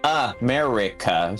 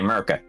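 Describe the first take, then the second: First: Every syllable is said in full. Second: Syllables are dropped and the word is shortened. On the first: The speaker calls it wrong. "it's too much to say America" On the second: The speaker calls it right. "so we just say America"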